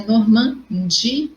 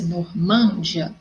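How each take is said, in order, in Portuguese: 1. A tônica cai na sílaba di. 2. A tônica cai na sílaba man. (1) "a minha sílaba mais forte é o di" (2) "teria que ter um acento ali no man"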